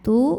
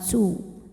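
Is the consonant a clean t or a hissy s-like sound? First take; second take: clean t; hissy. First: The consonant is a clean t with light air. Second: The consonant is hissy, like an s sound. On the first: The speaker calls it right. "Tu bukan su" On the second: The speaker calls it wrong. "bukan su"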